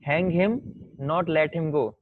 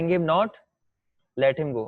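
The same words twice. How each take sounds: First: The pause comes right after 'hang him'. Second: The pause comes right after 'not'.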